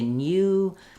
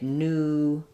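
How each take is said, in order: First: A y sound follows the n. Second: No y sound follows the n. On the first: "British English is going to say new" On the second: "American English will won't have that oo, that y sound"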